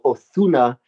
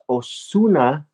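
First: The z is said like a th. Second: The z is said like an s. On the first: "they'll even put a lisp on it. They'll go Ozuna if they speak Castellano" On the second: "properly it's [name]"

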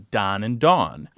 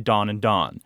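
First: The two words have clearly distinct vowel sounds. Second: Both words have the identical vowel sound. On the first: This is how the words sound in regions without the vowel merger. "they pronounce differently" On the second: This is how the words sound in regions with the vowel merger. "are pronounced the same"

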